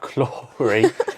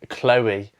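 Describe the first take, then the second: First: The name is said with an r sound. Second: The name is said without an r sound. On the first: This is how the name sounded in her accent. The speaker calls it wrong. "how she pronounced it in her accent sounded like Clory" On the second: This is the name's real form. The speaker calls it right. "instead of Chloe"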